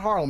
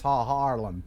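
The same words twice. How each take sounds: First: Harlem with a short first vowel; short-vowel pronunciation. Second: Haarlem with a long, doubled "aa"; drawn-out vowel. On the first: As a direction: say Harlem compactly, without stretching the vowel. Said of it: "it's not Harlem". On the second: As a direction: break and stretch the first vowel of Haarlem. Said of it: "use too many vowels". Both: Shown as a demonstration.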